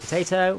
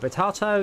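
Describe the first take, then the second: First: It is said with an American accent. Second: It is said with a British accent.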